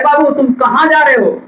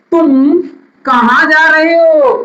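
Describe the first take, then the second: First: Said in the usual way. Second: Asking a question. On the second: Shown as a demonstration. Teacher to students, acting out a sample question. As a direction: act out the question to a child. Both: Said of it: "पूछा जाता है".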